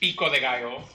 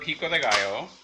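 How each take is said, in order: First: It is said with a Spanish accent. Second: It is said with an English accent. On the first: "It's actually" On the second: "which I'm anglicizing in its pronunciation"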